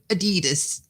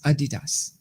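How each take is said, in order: First: The brand name is said in an American way. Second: The brand name is said in a non-American way. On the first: The speaker calls it wrong. "not your American Adidas" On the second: The speaker calls it right. "That is the way you pronounce it"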